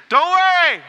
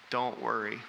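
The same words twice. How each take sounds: First: Much higher, much louder yelp of don't worry; mock panicked yell. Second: Said in the usual way. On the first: Shown as a demonstration. Pastor mimicking telling a panicked person, mock yelled. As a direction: shriek it like someone panicking you. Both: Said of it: "the worst thing you could do is say".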